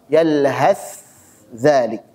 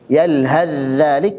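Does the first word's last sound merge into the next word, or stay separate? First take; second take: separate; merged. First: The final sound is pronounced clearly and separately. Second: The final sound merges into the next word. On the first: "berarti izhar" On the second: "berarti idgham"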